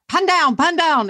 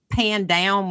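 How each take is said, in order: First: It is said in a British accent. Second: It is said in an American accent.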